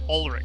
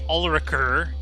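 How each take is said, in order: First: The name ends without any R sound. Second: The name ends with an audible R sound. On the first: The speaker calls it right. "the R at the end of the name was silent" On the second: The speaker calls it wrong. "You didn't say Ulriker"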